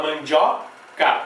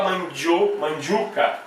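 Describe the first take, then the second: First: Slow "mandioca" with a full open O; clear O. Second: "mandioca" mispronounced as man-dju-ca; O turned to U. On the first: Teacher giving the form people really say, clear O. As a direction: say "mandioca" slowly, keeping the O. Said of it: "A gente fala". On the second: Teacher showing what one would not say, O turned to U. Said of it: "Eu não vou falar". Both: Shown as a demonstration.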